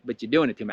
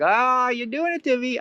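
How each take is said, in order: First: Said in the usual way. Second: High, drawn-out mock wail; acted feeling it. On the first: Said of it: "you might be seeing that it's doing it". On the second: Feeling the lie do it to you, high mock wail. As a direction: play the hurt up high and slow. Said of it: "you might be feeling it".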